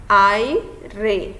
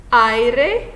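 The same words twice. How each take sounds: First: Aire said slowly with a falling tune, ai held together; Spanish example word again. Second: Aire said loud and drawn out with a rising tune; Spanish example word. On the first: Teacher repeating aire for the students, slow and falling. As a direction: drop the voice through aire, ai in one syllable. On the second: Teacher spelling out aire for the class, drawn out. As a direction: stretch out aire so the ai diphthong is clear. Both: Shown as a demonstration. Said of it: "Separa o ai, re".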